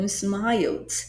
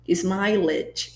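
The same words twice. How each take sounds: First: The ending is a bare d, one syllable. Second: The ending is a full extra syllable, two syllables. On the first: The speaker calls it right. "Esse E depois do L não é falado" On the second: The speaker calls it wrong. "as pessoas acabam erroneamente falando smiled"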